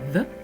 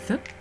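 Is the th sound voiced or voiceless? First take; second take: voiced; voiceless. First: The th sound is made with voicing. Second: The th sound is made without voicing. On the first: "la version douce, donc les cordes vont vibrer" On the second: "la version dure T H, où les cordes vocales ne vibrent pas"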